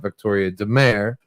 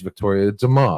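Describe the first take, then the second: First: The last syllable sounds like 'care'. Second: The last syllable sounds like 'car'. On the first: The speaker calls it wrong. "I don't want to call her Victoria DeMare" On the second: The speaker calls it right. "It is Victoria DeMar"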